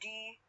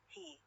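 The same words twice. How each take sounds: First: The word is said without the h sound. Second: The word is said with a clear h sound. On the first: "sometimes I pronounce it e only" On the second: "I should use he sound"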